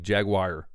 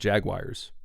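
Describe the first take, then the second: First: It is said with the commenters' pronunciation. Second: It is said with a Midwestern pronunciation. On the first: The speaker calls it right. "And people are like" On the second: The speaker calls it wrong. "I think that's what I was saying, ... Maybe it's my Midwestern accent"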